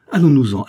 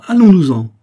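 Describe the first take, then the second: First: Anguished plea. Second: Much higher, much louder broken cry; anguished near-scream to flee; anguished outcry. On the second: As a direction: break out in panic on the repeat. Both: A narrator's reading. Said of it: "Une angoisse telle entrecoupait sa voix".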